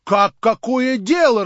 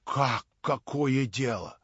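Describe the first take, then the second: First: Loud, high, drawn-out outcry; indignant exclamation. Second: Slow, drawn-out disbelief; restrained indignation. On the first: Crowd reacts to Stavrogin's indifference, exclaiming loudly. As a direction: burst out slowly and loudly in outrage. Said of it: "раздались восклицания". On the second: Crowd reacts to Stavrogin's indifference, slowly, with held-back disbelief. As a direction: stretch the question, holding it back. First take of crowd's exclamation. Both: A narrator's reading.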